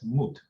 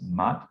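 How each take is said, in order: First: The vowel is a long 'oo' sound. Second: The vowel is a short 'uh' sound. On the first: "They pronounce it as moot" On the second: "they don't always pronounce it as mud?"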